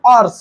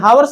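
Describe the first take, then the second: First: The word begins directly with a vowel. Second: The word begins with an h sound. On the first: The speaker calls it right. "ये शुद्ध pronounce आवर्स है" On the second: The speaker calls it wrong. "कुछ लोग हावर्स पढ़ते हैं, हावर्स नहीं है"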